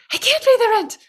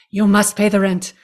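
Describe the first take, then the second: First: Very high pleading damsel voice; damsel in distress. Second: Lightly voiced melodrama villain, a bit louder; hint of a sneering landlord demanding rent; sneering panto villain. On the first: Pretend. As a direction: squeal it like a helpless victim. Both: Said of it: "this is the world's shortest play".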